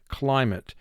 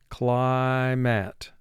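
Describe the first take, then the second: First: The last vowel is reduced and natural. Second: The last vowel is full, like "mat". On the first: This is how the word is said in speech. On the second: This form helps with spelling the word.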